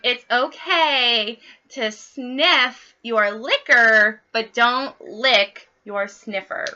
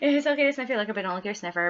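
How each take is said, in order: First: The phrase is spoken more slowly. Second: The phrase is spoken quickly. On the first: "I will slow that down for you" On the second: "it sounds so much funnier when I say it fast"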